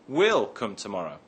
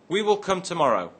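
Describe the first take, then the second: First: 'We will' is shortened to one syllable. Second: 'We will' is said as two full words.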